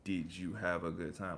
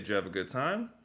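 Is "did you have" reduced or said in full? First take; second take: full; reduced. First: Each of the first three words is said separately. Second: The first three words blend into one syllable. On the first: "I don't have to say" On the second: "instead of saying 'Did you have,' just say Jev"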